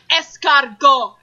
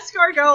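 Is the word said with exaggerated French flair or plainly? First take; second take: exaggerated; plain. First: It is said with an exaggerated French accent. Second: It is said in a plain, ordinary voice. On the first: The speaker calls it wrong. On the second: The speaker calls it right. "like a normal person. Say it in your normal voice"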